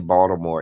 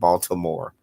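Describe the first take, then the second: First: It is said in the local DMV way. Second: It is said in the standard non-local way. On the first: The speaker is from the DC-Maryland-Virginia area. "Only D M V people say Baltimore" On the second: The speaker is not from the DC-Maryland-Virginia area. "instead of Baltimore"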